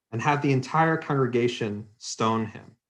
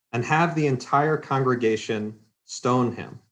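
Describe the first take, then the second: No difference in how they are said.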